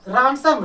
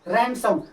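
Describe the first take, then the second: First: The first vowel is an open 'aw' sound. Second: The first vowel is an 'a' as in cat. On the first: The speaker calls it wrong. "इसे हम लोग रॉनसम रॉनसम रॉट" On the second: The speaker calls it right. "रैन रैन सैम रैनसम"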